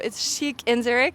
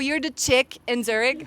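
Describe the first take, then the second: First: The first word sounds like sheek. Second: The first word sounds like chick. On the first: This is how the owner says the name. The speaker calls it right. "no, it's chic in Zurich" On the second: Other people say the name this way. The speaker calls it wrong. "it was always mispronounced"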